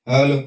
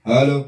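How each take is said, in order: No difference in how they are said.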